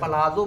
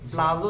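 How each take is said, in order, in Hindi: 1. एक स्वर 'p' और 'l' को अलग करता है। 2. 'p' और 'l' बिना किसी स्वर के एक साथ जुड़ जाते हैं। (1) "पलाजो बोल लो तो भी ठीक है" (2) "प्लाजो तो बिल्कुल गलत"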